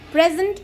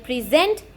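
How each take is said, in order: First: The stress is on the first syllable. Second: The stress is on the second syllable. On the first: It is a noun meaning a gift. "So in noun we are going to stress the first syllable" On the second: It is a verb meaning to give formally. "Here the second syllable will be stressed"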